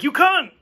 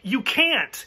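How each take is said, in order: First: It is said in a British accent. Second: It is said in a plain American accent. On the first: "because he's British, it comes out like" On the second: "he says something like"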